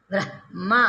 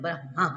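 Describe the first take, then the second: First: ब्रह्मा with the h breathed first, then the m, "ब्र-ह्-मा"; correct pronunciation. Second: ब्रह्मा said as "बरमा", the m sound first and the h dropped; common wrong pronunciation. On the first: Teacher to students, modelling ब्रह्मा the correct way, h before m. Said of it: "पहले ह है, उसके बाद म है ना". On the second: Teacher to students, showing the common mispronunciation of ब्रह्मा as "बरमा". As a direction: say ब्रह्मा the careless way, as "बरमा", m before h. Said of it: "ऐसे बोल देते हैं". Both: Shown as a demonstration.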